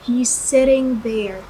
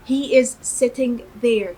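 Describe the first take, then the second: First: 'He is' is shortened to one quick syllable. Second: Both words 'he is' are said in full. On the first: "اللي هو السريع اللي بيقولوه ده، اللي هو اللكنة العامية" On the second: "كده النطق بالترجمة"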